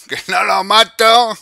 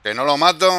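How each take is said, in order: First: Higher, louder, slow frustrated wail; drawn-out whine. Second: Said in the usual way. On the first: Real, not acted. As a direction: stretch it out in disbelief.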